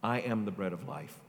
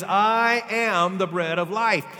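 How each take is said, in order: First: Said in the usual way. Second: "I am the bread of life" louder, higher and slow, each word driven; proclaimed slowly. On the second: Shown as a demonstration. Preacher declaring Jesus' claim to the crowd, slow loud proclamation.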